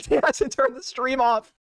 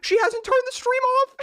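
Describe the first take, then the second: First: Slow, laughing through the words; laughing repeat. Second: High, slow, incredulous; stunned disbelief. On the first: Watching her rant still live, laughing slowly. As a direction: say it again while cracking up. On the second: Watching her rant still live, high stunned disbelief. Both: Real, not acted.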